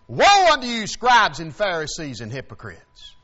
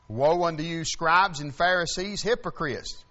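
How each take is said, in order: First: It is said forcefully and loudly. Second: It is said gently and plainly.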